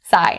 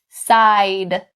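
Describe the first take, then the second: First: The final D sound is left out. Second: The final D sound is fully released. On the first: The speaker calls it wrong. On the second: The speaker calls it right.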